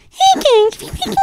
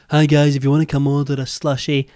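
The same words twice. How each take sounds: First: Extremely high, loud squeaky greeting; exaggerated chipmunk-voice imitation; mock minion squeak. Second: Lower, louder mock vlogger greeting; impression of her former, deeper greeting; imitated older-video voice. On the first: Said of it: "Bro turned into a minion in two years". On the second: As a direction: mimic her old voice, without the high pitch. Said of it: "she didn't speak that high pitched in her older videos".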